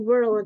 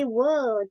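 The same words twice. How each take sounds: First: The R sound is clearly pronounced in the word. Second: The R sound is dropped from the word. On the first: "American dia agak mikir dikit nih... ada R-nya kayak world" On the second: "Kalau yang British, R-nya buang"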